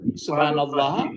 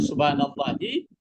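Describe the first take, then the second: First: The word ends on 'h' without a vowel. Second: The word ends with a final 'ee' vowel.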